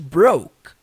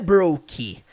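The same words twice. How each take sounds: First: The final k is nearly silent. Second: The final k is clearly and fully pronounced. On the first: The speaker calls it right. "K mudo ... É simplesmente broke" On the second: The speaker calls it wrong. "não é broke"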